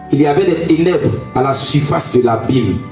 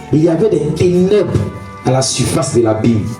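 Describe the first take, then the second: Both takes have the same delivery.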